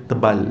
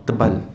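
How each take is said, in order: Both takes have the same delivery.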